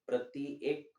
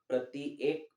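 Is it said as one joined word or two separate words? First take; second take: separate; separate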